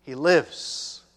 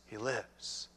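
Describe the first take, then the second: First: Loud, triumphant declaration; proclaiming loud. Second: Soft, low echo of the line; hushed repeat. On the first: Preacher proclaiming the son lives, loud and triumphant. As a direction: announce it with joy. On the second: Preacher repeating the promise, soft and low. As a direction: let it settle, quietly. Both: Shown as a demonstration. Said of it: "As I'm speaking".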